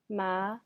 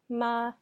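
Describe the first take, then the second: First: The pitch rises from middle to high. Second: The pitch stays high and level. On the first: It means hemp. "The second tone goes up" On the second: It means mother. "The first tone is ma, straight out"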